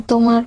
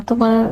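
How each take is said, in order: Both takes have the same delivery.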